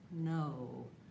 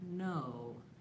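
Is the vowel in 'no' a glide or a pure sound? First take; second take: glide; glide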